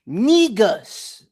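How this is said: The word is pronounced in an African way. The speaker calls it right. "Sound like an African would say, it"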